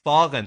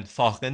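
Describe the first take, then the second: First: فاغن, middle sound kept clear of kh; correct pronunciation. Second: فاغن with its middle hardened to kh; فاغن mispronounced like "fakhen"; wrong pronunciation. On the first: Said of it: "فاغن، فاغن نیستا". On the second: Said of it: "فاغن نیستا". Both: Shown as a demonstration.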